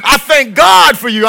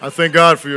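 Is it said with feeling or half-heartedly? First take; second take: with feeling; half-heartedly. First: It is said warmly, like it is meant. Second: It is said flatly, without real feeling.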